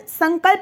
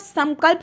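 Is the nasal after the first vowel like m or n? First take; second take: n; m. First: The nasal sound is not a light m. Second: The nasal sound is a light m. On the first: The speaker calls it wrong. "नहीं होता" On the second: The speaker calls it right. "होता है"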